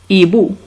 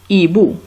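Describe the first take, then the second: No difference in how they are said.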